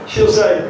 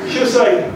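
Both takes have the same delivery.

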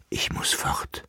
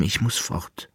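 First: Unvoiced whisper, very soft. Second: Fading quiet. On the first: A narrator's reading. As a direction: breathe it out as a farewell. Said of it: "flüsterte sie". (flüsternd, sehr leise) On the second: Acted. Rose leise, verblassend.

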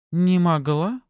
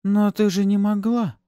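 First: High-pitched, mocking question; scornful echo. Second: High, loud objection; disbelieving protest. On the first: Pafi mocking her rival's disbelief, contemptuous. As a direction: throw the words back as a scornful question. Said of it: "Пафи презрительно рассмеялась". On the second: Kastala refusing to believe Pafi did it, protesting. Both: A narrator's reading.

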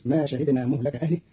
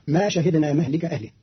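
First: مهلك said "muhlaka"; مهلك as "muh-la-ka", not "mahlika"; damma then fatha. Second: Said in the usual way. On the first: Shown as a demonstration. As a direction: give مهلك u after m, a after l. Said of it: "بضم الميم وفتح اللام". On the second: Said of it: "قرأ قالون كلمة مهلك".

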